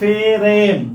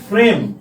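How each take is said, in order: First: An e vowel is inserted between f and r. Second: The f and r are said together, no vowel. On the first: "উচ্চারণ করে লিখি ফেরেম, তার মানে কি এখানে একটা একার আসে" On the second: "যদি আমরা বলি ফ্রেম"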